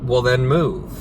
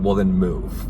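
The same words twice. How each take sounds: First: It is said lightly and daintily, without threat. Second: It is said forcefully with a threatening edge. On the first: The character poses no real threat. The speaker calls it wrong. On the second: The character means business. The speaker calls it right.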